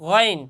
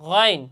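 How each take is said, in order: No difference in how they are said.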